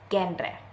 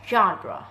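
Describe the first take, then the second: First: It begins with a hard 'g' sound. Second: It begins with a soft 'zh' sound. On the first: The speaker calls it wrong. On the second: The speaker calls it right.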